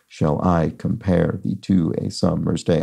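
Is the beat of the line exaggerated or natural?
exaggerated. Every second syllable is heavily stressed.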